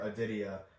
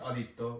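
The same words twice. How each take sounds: First: The name is said with an American pronunciation. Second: The name is said with a Bengali pronunciation. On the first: "In American English it'd be like" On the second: "in Bengali it's"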